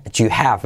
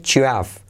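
First: "do you have" as "ju-hav", H audible; sounded H. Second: "do you have" as "ju-av", no H; dropped H. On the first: Teacher allowing the H, H sounded in do you have. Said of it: "No pasa nada si le haces la H". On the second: Teacher showing native omission, H-less do you have. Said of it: "Salto la H". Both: Shown as a demonstration.

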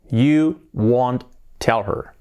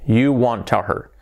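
First: Very slow, separated words; slow model sentence. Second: Said in the usual way. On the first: Shown as a demonstration. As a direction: dictate it word by word to learners. Teacher models sentence slowly, then faster. (frase modelo, palabra por palabra)

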